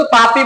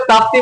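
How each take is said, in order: First: ताप्ती said as "taa-pee", no T after the P; variant pronunciation. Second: ताप्ती said as "taap-tee", with both P and T; variant pronunciation. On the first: Teacher showing students one variant name, ताप्ती said "taapee". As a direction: drop the second T in ताप्ती. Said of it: "कई लोग इसको ताप्ती बोलते हैं". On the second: Teacher showing students the other variant, ताप्ती said "taaptee". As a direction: sound the second T in ताप्ती. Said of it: "कई लोग ताप्ती बोलते हैं". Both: Shown as a demonstration.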